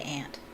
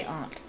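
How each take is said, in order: First: "aunt" said like "ant", flat short a; American aunt. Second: "aunt" said with a long broad ah, as "ahnt"; British aunt. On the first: Reader saying "aunt" in her own American accent, like ant. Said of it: "if I'm saying it in my accent". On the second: Reader showing how the British say "aunt", ahnt. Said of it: "They say aunt". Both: Shown as a demonstration.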